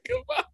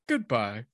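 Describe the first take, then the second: First: It is said in his normal voice. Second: It imitates the AOL goodbye guy's voice.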